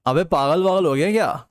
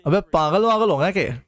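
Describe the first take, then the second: First: Said in the usual way. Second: Lightly put-on male voice, barely shifted; male accent. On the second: Shown as a demonstration. Chat asks for male accent, he repeats line in a faint put-on voice. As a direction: repeat it in a half-hearted male voice. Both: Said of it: "Male accent please".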